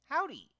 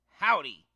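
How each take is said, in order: First: It is said in a happy, cheerful tone. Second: It is said in an angry, harsh tone. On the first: The character is feeling happy. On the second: The character is feeling angry.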